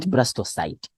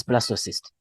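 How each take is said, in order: First: "blastocyte" ending like "sight"; wrong pronunciation. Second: "blastocyst" ending in a short "sist"; correct pronunciation. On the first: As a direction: say the end of "blastocyte" with a long i, as in "sight". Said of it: "not blastocyte". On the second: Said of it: "that's how we pronounce". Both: Shown as a demonstration.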